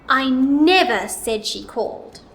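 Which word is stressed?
never. The word "never" is louder, longer and higher. "Now let's put it on the word never"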